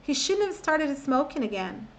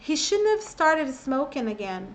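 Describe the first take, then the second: Both takes have the same delivery.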